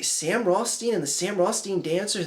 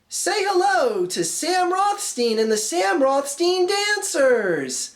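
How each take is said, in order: First: It is said in a normal, puzzled voice. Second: It is said in a showy announcer voice.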